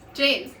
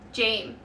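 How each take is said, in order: First: The name ends with an s sound. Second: The name ends without an s sound. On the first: "James works"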